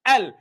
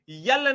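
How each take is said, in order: First: The letter name starts with a plain 'e' sound. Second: The letter name starts with a 'ye' sound. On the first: The speaker calls it right. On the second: The speaker calls it wrong.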